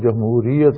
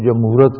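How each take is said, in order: First: The word ends with the full '-iyat' syllables. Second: The word ends with a shortened '-at' syllable. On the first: The speaker calls it right. "صحیح تلفظ جمہوریت" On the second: The speaker calls it wrong. "کوئی جمہورت کہتا ہے"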